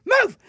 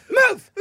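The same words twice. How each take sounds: First: High sharp Move, again insistent; shouted order. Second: Sharp high yell of Move; shouted order. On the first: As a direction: yell it at the stubborn driver. Repeat order to driver. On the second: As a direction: bark the word at him. Telling driver to move. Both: Retold or imitated.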